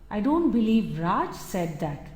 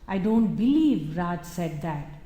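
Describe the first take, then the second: First: The word Raj carries the main stress. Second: The word believe carries the main stress. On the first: Someone else may have said it. "It could be someone else, but not Raj" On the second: The speaker cannot believe such a thing was said. "it is about a disbelief. I can never believe Raj would say that"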